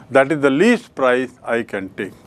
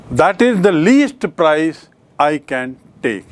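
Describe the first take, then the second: First: Said in the usual way. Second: Slow and deliberate, leaning on "least"; teacher dictating to class, "least" stressed slowly; slow dictation. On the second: Shown as a demonstration. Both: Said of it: "So the word is".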